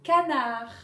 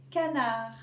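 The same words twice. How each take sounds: First: Canard called out loud; loud teaching word. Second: Said in the usual way. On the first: Shown as a demonstration. Teacher calling the word to pupils, loud. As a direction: call out Canard to the class. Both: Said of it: "vous allez dire si on entend".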